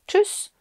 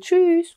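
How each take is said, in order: First: The middle vowel is clipped short. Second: The middle vowel is drawn out long. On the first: The speaker calls it wrong. "ne pas faire chanter la voyelle du milieu en disant Tschüss de façon plus courte" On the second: The speaker calls it right. "c'est plus joli et c'est plus sympa de dire Tschüss"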